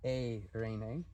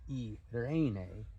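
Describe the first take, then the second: First: The opening vowels blend into one sound. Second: The opening vowels are said as two separate sounds. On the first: The speaker calls it right. "it's Eirene" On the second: The speaker calls it wrong. "it's not e Irene"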